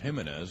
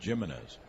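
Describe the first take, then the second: First: The name begins without a G sound. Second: The name begins with a G sound. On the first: This is how most people assumed it was said. The speaker calls it wrong. "everyone thought his name was Jimenez" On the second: This is how the player himself says it. The speaker calls it right. "I pronounce it Jimenez. That's why it's with a G"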